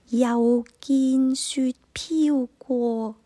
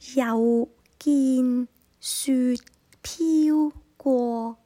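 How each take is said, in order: First: The line is spoken at normal speed. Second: The line is spoken slowly.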